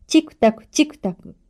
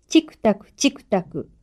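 First: チクタクチクタク higher and faster, like a small clock; quick, high ticking on チクタクチクタク. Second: Said in the usual way. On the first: Shown as a demonstration. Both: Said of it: "小さい時計は".

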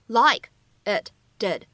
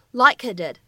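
First: Said in the usual way. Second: "like it did" linked, t of "it" dropped; linking, lost plosion. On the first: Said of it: "我们可以自然的连读一下". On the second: Shown as a demonstration. Teacher showing learners "like it did" linked as one unit. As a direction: join k onto "it", hold the t before "did". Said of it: "存在典型的失去爆破".

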